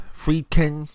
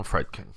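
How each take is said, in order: First: "Friedkin" with a long ee, "FREED-kin"; corrected pronunciation. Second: "Friedkin" said with a short e, "FRED-kin"; mispronounced name. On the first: Podcast host fixes director's name, "Friedkin" as "FREED-kin". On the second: Podcast host slips on director's name, "Friedkin" as "FRED-kin". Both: Real, not acted.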